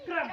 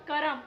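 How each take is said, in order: First: "क्रम" में क्र एक साथ, बिना बीच के स्वर; joined क्र cluster. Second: "करम" में क और र अलग, क-रम; full र in करम. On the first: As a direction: say "क्रम" as one short syllable, kram. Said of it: "और ये क्या?". ("क्रम" का संयुक्त क्र उच्चारण) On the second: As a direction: say "करम" loudly with a vowel after क. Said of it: "तो इसको हम बोलते हैं". ("करम" को क-रम बोलें) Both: Shown as a demonstration.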